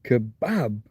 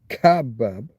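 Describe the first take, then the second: First: The stress is on the accented second syllable. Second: The stress is not on the accented second syllable. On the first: The speaker calls it right. "it's going to be kebab" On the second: The speaker calls it wrong. "rather than kebab"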